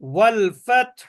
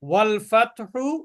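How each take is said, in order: First: The phrase ends on a consonant, vowel dropped. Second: The phrase ends with a pronounced final vowel.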